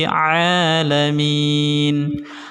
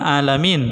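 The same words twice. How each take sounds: First: It starts with a tight throat sound. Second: It starts with a plain vowel. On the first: The speaker calls it right. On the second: The speaker calls it wrong.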